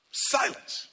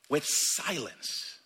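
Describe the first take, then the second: First: "Silence" breathed as a whisper. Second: Said in the usual way. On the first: Shown as a demonstration. Preacher showing silent mourning, whispered.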